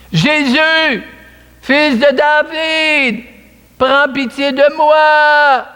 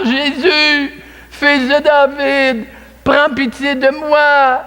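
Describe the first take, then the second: First: High, slow cry for mercy. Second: High, slow, insistent cry; crying louder. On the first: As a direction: call out to Jesus from the roadside, drawn out. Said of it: "il se met à crier". (cri lent et aigu d'un aveugle qui implore Jésus) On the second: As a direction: call to Jesus again, pleading harder. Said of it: "Il crie plus fort". (cri plus fort, aigu et lent, qui supplie) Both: A narrator's reading.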